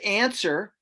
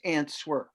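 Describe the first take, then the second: First: The w is silent. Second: The w is pronounced. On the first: "this is answer" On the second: "help to remember it, George, it's answer"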